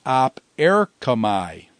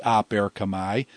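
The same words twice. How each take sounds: First: Op set apart from erkamai; split between words. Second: Said in the usual way. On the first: Shown as a demonstration. Teacher showing students the word split, op apart from erkamai. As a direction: say "op", break, then "erkamai" syllable by syllable. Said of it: "the op comes off as a syllable".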